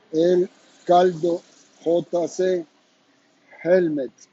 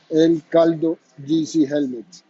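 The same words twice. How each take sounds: First: "El Caldo J C Helmets" said slowly, each letter set apart; slow, higher brand name read for viewers to write down; slow careful spelling. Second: Said in the usual way. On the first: Shown as a demonstration. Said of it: "La palabra helmet". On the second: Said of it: "repeats brand name for clarity".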